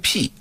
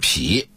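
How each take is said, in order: First: It is said like the character for 'open up'. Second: It is said like the character for 'chop'. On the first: The speaker calls it right. "它的准确的发音是劈，开辟的辟" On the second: The speaker calls it wrong. "而不是劈"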